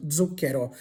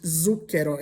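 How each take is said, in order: First: "zucchero" begun with a voiced dz, DZOOK-ke-ro. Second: "zucchero" begun with a plain z or ts, the wrong way; mock the wrong start of "zucchero". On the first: Teacher modelling correct Italian zucchero, voiced dz. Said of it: "with a D Z sound". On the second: Teacher showing students the wrong zucchero. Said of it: "it's not pronounced zucchero". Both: Shown as a demonstration.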